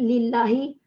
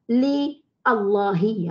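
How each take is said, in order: First: The parts are joined together as one word. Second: The parts are split into two separate words. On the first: "dah tak nampak" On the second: "kalau kita pecahkan"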